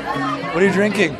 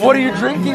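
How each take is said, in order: First: It sounds casual and relaxed. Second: It sounds eager and personally intense. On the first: The asker is only interested in the drink. The speaker calls it right. "I'm not that interested in you, I'm interested in what you're drinking" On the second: The asker is interested in the person. The speaker calls it wrong. "Instead of, what are you drinking like that"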